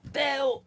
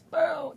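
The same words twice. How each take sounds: First: Shouting Bill. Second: Other shout of Bill. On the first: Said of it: "I'm shouting out to Bill, like this". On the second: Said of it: "or sometimes like this". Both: Retold or imitated.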